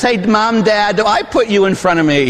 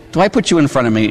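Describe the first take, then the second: First: Put-on higher, eager kid asking his parents; a child asking Mom and Dad, a bit higher; pleading child. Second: Said in the usual way. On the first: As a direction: ask it like a hopeful child. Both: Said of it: "You ask your parents".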